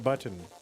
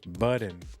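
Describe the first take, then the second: First: The middle consonant sounds like a T. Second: The middle consonant sounds like a D.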